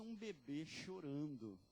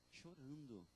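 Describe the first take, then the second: First: Said in the usual way. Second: Chorando said much softer, falling away; a quiet repeated Chorando; soft echo. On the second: Shown as a demonstration. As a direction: let Chorando drop to a hush.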